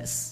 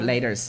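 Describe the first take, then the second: First: It is said in a British accent. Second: It is said in an American accent.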